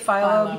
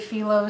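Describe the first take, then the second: First: The first vowel sounds like 'eye'. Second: The first vowel sounds like 'ee'. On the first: "I always say Philo because it's a Y" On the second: "I hear other people say Philo"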